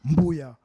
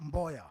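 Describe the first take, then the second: First: The first vowel sounds like 'oo'. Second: The first vowel sounds like 'oh'. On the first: This is how an older relative said the name. "my father used to pronounce the name Mboya as Mbuya" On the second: This is the usual way the name is said. "not Mboya"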